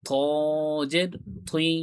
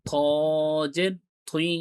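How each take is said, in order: No difference in how they are said.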